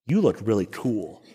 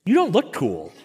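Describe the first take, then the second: First: Smug self-talk. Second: Deflated self-talk. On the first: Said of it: "think to myself". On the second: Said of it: "and I think". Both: Retold or imitated.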